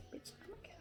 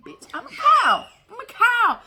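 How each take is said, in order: First: Unvoiced whisper. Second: High, loud squeal; excited shout. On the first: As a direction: whisper it in delight. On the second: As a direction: belt it out in glee. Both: Shown as a demonstration. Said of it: "trying the phrase different ways".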